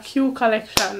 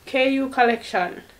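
First: The first part is said as the letter Q. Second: The first part is spelled out as K-U. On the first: The speaker calls it wrong. "or Q Collection" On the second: The speaker calls it right. "It's KU Collection"

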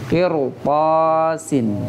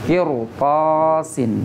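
Both takes have the same delivery.

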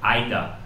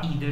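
First: The word sounds harsh and German-like. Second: The word sounds soft, not German-like. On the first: "Eu não falo assim, eu acho muito ardido... Parece meio alemão" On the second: "Eu prefiro falar either"

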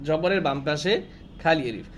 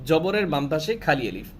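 No difference in how they are said.

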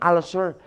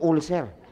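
First: It is said with the standard pronunciation. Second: It is said the way Filipinos say it. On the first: "Ang pronunciation nun" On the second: "Pero kayo sa Pilipinas, ang tawag nyo"

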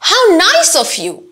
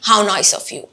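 First: It sounds expressive and genuinely felt. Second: It sounds forced and lacks feeling.

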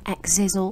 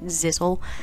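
First: The name begins with an 'eks' sound. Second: The name begins with a 'z' sound. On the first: "throughout I've pronounced Exizzle" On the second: "they've pronounced it Zizzle"

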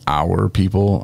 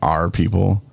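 First: The word 'our' is said the normal way. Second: The word 'our' sounds like a pirate's 'arr'. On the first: The speaker calls it right. "instead of saying our people" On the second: The speaker calls it wrong. "I said our people. ... am I a pirate or something?"

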